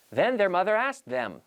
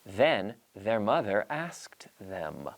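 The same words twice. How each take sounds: First: "Then their mother asked them" at normal speed with the words linked; linked natural speed. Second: "Then their mother asked them" very slow, each th voiced; slow tongue twister. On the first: Teacher saying the tongue twister at speed with linked words. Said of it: "notice the way I link the words". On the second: Teacher modelling the tongue twister slowly for students. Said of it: "our tongue twister is". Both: Shown as a demonstration.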